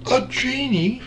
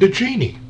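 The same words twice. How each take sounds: First: High, soft rising disbelief; surprised question. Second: Said in the usual way. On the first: A narrator's reading. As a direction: ask it back in disbelief. Narrator echoes in surprise.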